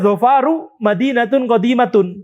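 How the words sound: The first word ends with a u vowel. This follows the minority Banu Tamim dialect. "Bagi sebagian kecil Banu Tamim ini akan dibaca Zafaru"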